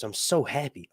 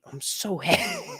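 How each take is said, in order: First: Said in the usual way. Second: Giddy squeal. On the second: Real, not acted. Gushing over Valyrian glyphs.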